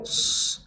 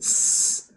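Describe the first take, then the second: First: The s is said with rounded lips. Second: The s is said thin with spread lips. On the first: The speaker calls it wrong. "tidak boleh s" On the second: The speaker calls it right. "tapi s"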